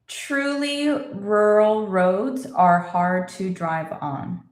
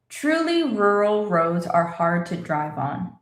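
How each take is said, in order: First: It is spoken slowly, slightly quicker than before. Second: It is spoken at a moderate, picked-up pace. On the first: "A little faster" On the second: "A little faster"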